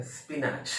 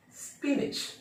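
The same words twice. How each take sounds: First: स्पिनच as spi-naach, long final vowel; common mispronunciation. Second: स्पिनच as high-pitched spee-nich; short nich ending on स्पिनच, first syllable high; correct pronunciation. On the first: Teacher quoting what many people say, spi-naach mispronunciation. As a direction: end स्पिनच on an open naach. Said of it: "ये गलत है". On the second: Teacher giving the original pronunciation, spee-nich demonstration. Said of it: "इसका original pronunciation". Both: Shown as a demonstration.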